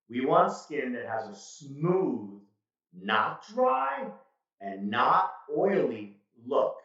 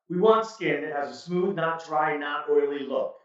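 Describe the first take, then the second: First: The sentence is spoken slowly. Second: The sentence is spoken quickly. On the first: The speaker calls it right. "this is a perfect example of speaking slowly" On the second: The speaker calls it wrong. "just rush through it and see what it sounds like"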